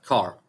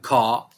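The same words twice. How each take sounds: First: The final r sound is pronounced. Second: The final r sound is dropped. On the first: "الار تنطق" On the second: "فما يقول لك كار"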